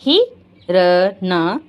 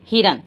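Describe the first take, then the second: First: Slow, drawn-out हिरन with a rise; slow teaching voice; stretched demo. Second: Said in the usual way. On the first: Shown as a demonstration. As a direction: draw हिरन out for the children.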